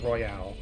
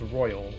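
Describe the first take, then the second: First: It is said with the royale ending. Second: It is said like the ordinary word royal. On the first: The speaker calls it wrong. "Why would some people call it Royale? That has an E at the end" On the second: The speaker calls it right. "it is pronounced Royal"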